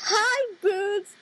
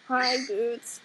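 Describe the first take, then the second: First: The greeting sounds cheerful, not sad. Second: The greeting sounds sad and downcast.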